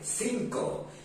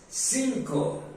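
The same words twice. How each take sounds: First: The word begins with a 'th' sound. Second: The word begins with an 's' sound. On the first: This is how it is said in Spain. "en Espagne, le C se prononce C" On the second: This is how it is said in Latin America. "en Colombie, nous disons comme un S"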